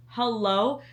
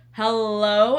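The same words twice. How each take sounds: First: Said in the usual way. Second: Louder rising "Hello?" called across the house. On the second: Retold or imitated. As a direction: call "Hello?" out loud to get attention. Calling to partner, retold louder.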